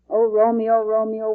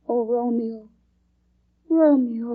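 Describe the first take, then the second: First: It is recited flatly, without feeling. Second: It is read expressively, with feeling.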